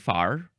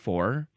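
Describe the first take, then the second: First: The vowel sounds like the one in 'car'. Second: The vowel sounds like the one in 'door'. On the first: This is how Southern speakers say it. "Southern people will say far" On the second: This is how the speaker personally says it. "I will say for"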